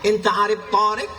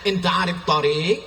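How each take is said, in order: First: The first vowel of tarik is lengthened. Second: The second vowel of tarik is lengthened. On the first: It asks whether he knows a man named Tariq. The speaker calls it wrong. "Gara-gara alifnya dia pasang tarik" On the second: It asks whether he knows the way. The speaker calls it right. "padahal yang betul mestinya dia tanya"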